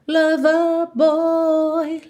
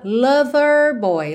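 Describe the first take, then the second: First: It ends 'lover' with a long vowel and no R. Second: It ends 'lover' with an R sound.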